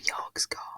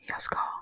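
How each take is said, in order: First: The g at the end of jag is pronounced. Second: The g at the end of jag is silent. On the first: "instead of jag ska" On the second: "you just say jag ska"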